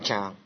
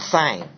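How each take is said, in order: First: It begins with a j sound. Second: It begins with an s sound. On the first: The speaker calls it right. "but something like Zhang" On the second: The speaker calls it wrong. "not Sang"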